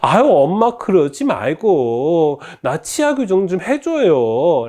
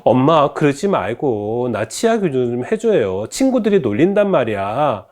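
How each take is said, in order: First: High, drawn-out begging; exasperated plea with stretched words; whining, pleading daughter. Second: Mildly pleading, not giving in; a daughter's restrained nagging; insistent pleading daughter. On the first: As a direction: beg mom slowly in a high-pitched whine. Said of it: "딸은 다시 한번 말합니다". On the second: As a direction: press mom with a light plea. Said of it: "굽히지 않고 다시 말합니다". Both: Acted.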